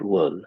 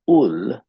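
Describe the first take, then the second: First: It starts with a clear w sound. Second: It starts with a vowel and no w. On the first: The speaker calls it right. "we need to learn to put the I ... in the W" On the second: The speaker calls it wrong. "Ul, not will"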